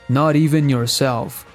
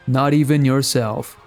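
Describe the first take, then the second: The two takes are said the same way.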